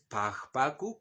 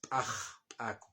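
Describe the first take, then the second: First: The middle consonant is a plain, non-explosive sound. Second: The middle consonant is an explosive, ejective sound. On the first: The speaker calls it wrong. "no es pajpaku, como dijo el racista" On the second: The speaker calls it right. "Es aj, explosiva"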